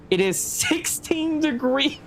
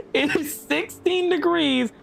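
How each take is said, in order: First: Sixteen said slowly on a rising tune, in disbelief; slow, rising, disbelieving "sixteen"; incredulous question. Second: Slow, falling tune landing on "degrees"; a grim, final "degrees"; flat confirmation. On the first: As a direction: ask "it is sixteen degrees" as if you can't believe it. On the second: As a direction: state "It is sixteen degrees" with a resigned laugh. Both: Real, not acted.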